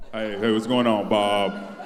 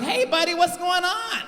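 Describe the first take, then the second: First: Very low, drawn-out man's voice; put-on deep manly voice; mock deep voice. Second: High-pitched mock white man; put-on high white-people voice; comedian's white-guy voice. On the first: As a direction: drop right down to a deep bass greeting. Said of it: "I bet you don't even talk like that". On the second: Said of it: "that's the voice every black comedian use for white people".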